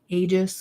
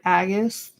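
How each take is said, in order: First: It sounds close to the word 'ageist'. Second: It sounds close to the name 'Agus'. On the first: This is how most people say it. "that's how people pronounce it... It sounds like I'm saying ageist" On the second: This is the speaker's habitual way of saying it. "I keep calling it Aegis, and people keep giving me crap for it"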